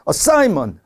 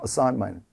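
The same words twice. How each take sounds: First: The middle syllable is stressed too heavily. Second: The middle syllable is stressed moderately. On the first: The speaker calls it wrong. "이렇게 하시는 분들 계세요. 근데 그렇게 되면 안 되죠. 너무 좀" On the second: The speaker calls it right. "여기 I의 강세가 있죠"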